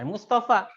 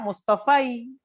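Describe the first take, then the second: First: The word ends with a plain long 'a'. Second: The word ends with an added 'i' sound. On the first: The speaker calls it right. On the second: The speaker calls it wrong.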